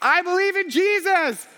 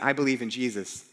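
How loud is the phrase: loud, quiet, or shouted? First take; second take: shouted; loud. First: The phrase is screamed at full volume. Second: The phrase is said in a louder voice. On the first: "was screaming" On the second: "I said it louder"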